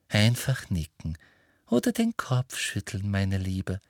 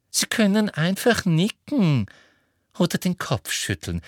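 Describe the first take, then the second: First: Gently coaxing, at ordinary pitch; encouraging. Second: High, pressing instruction; insistent Umbridge. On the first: A narrator's reading. Umbridge encourages Marietta to give a sign, gently coaxing. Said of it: "ermunterte Umbridge Marietta". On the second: Acted. Umbridge tells Marietta she may just signal, insistent. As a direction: start high and strong, easing down at the end.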